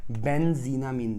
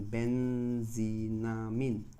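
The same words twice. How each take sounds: First: Said in the usual way. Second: "बेंजीनामीन" stretched out slowly, syllable by syllable, a little lower; slow spelled-out name. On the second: Shown as a demonstration. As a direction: draw "बेंजीनामीन" out slowly so students catch each part. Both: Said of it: "benzene में amine लगा दिया".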